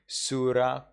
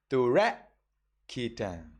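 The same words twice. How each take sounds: First: Surakhetang with an S; quick Surakhetang starting on S; Sri Lankan reading. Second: Slow Turakhetang with a T, ending cut off; Turakhetang, T start, clipped end; Burmese reading. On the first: Teacher showing the Sri Lankan Surakhetang. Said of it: "here in Sri Lanka". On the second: Teacher giving the Burmese Turakhetang. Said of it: "you say". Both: Shown as a demonstration.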